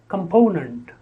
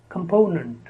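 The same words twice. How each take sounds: Both takes have the same delivery.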